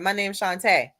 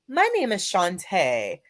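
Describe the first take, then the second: First: It is said in a relaxed, everyday casual voice. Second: It is said in a formal, polished job-interview voice. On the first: The speaker is talking as their natural self. "instead of" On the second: The speaker is changing themselves to fit in. "when someone calls you for a job interview"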